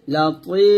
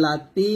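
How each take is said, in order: First: লাতি with a thick, full ত; লাতি pronounced with a heavy ত. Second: লাতি with a thin, light ত like ত; the common wrong way: লাতি with a thin ত. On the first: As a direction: say লাতি with a heavy ত, not a thin one. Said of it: "তর উচ্চারণ একটু খেয়াল করুন". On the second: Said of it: "ত কিন্তু তার মতো উচ্চারণ করলে হবে না". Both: Shown as a demonstration.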